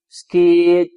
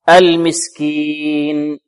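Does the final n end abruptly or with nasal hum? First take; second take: abruptly; nasal hum. First: The final n is cut off abruptly. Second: The final n ends with a short nasal hum. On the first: The speaker calls it wrong. "لا ننطقها هكذا كما يقرأ البعض ... هكذا يبتر" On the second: The speaker calls it right. "فنقف عليها بغنة هنا ناقصة"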